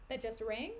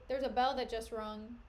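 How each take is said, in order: First: "rang" questioned with rising tune; self-correction. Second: Said in the usual way. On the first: Shown as a demonstration.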